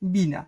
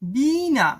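First: The first vowel is kept short. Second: The first vowel is drawn out long. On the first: "কিন্তু আমরা উচ্চারণ এটাকেও বলি বিনা" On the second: "এটার উচ্চারণ হওয়া উচিত বিনা"

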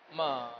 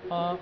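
First: The pitch dips down then rises. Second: The syllable is short and light, unstressed. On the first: It means horse. "third tone, first of all, that is down, then up" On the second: It marks a question. "neutral tone, sound is light"

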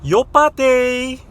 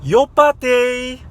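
The two takes are said the same way.

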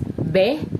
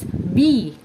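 First: The vowel is a short e sound. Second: The vowel is a long e sound. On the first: The speaker calls it wrong. "using the short pronunciation or short variation" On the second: The speaker calls it right. "making E sound as the long E"

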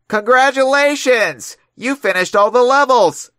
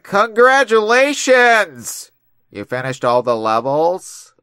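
First: It ends with a falling, exclaiming tune. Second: It ends with a rising, questioning tune.

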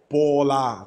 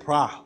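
First: Two separate syllables, bo and la. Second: One merged syllable with a consonant cluster. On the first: The speaker calls it wrong. "它不会是波拉，它不会这样子念" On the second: The speaker calls it right. "它应该是pra"

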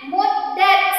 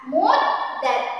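First: The d sound is short, not doubled. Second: The d sound is held long, doubled. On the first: The speaker calls it wrong. "Jangan muddat" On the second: The speaker calls it right. "Jadi bacaannya kita tahan"

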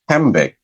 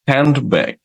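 First: The nd becomes an m sound. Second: A d sound is heard before the b.

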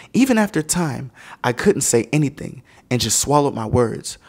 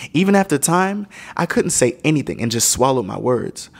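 Both takes have the same delivery.

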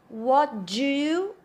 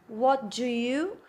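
Both takes have the same delivery.

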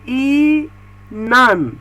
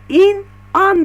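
First: The word is said smoothly without a break. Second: The word is split with a break between syllables. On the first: The speaker calls it right. "ama doğrusu inan" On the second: The speaker calls it wrong. "in an diye okuyabilirsiniz"

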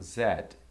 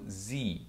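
First: The letter is said the British way. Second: The letter is said the American way. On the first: "no inglês britânico eu falo Z" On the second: "no inglês americano eu falo Z"

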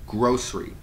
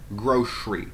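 First: The middle consonant is an S sound. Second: The middle consonant is an SH sound. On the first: "Some people might say grocery" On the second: "S as in shock"

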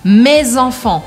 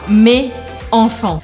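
First: The s is sounded and joined to the next word. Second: The s is silent, with no link between words. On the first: The speaker calls it right. "A gente aqui pronuncia excepcionalmente o S de me, porque eu grudo com o som da próxima palavra" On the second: The speaker calls it wrong. "eu não falo mes enfants"

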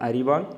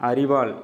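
No difference in how they are said.

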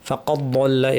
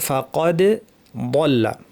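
First: The two middle consonants run together into one. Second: The two middle consonants are pronounced separately, distinctly. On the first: The speaker calls it wrong. "দুটো যেন একসাথে লেগে ফাকাদ বল্লা এরকম না হয়ে যায়" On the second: The speaker calls it right. "এভাবে আমাদেরকে পড়তে হবে"

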